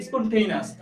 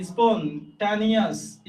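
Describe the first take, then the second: First: স্পন্টেনিয়াস said with "টেই", the real English sound; স্পন্টেনিয়াস at normal pace, spon-TAY-nee-us; correct pronunciation. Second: স্পন্টানিয়াস said slowly as spelt, with a clear "টা" and "নি"; স্পন্টানিয়াস slow, syllable by syllable, as a spelling aid; spelling pronunciation. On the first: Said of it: "উচ্চারণটা হচ্ছে". (সঠিক উচ্চারণে স্পন্টেনিয়াস) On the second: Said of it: "এভাবে বানানটা মনে রাখতে পারেন যদি উচ্চারণ এটা না". (স্পন্টানিয়াস বানান মনে রাখার জন্য ধীরে, "টা-নি" স্পষ্ট করে) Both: Shown as a demonstration.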